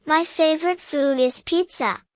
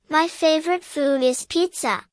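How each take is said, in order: Both takes have the same delivery.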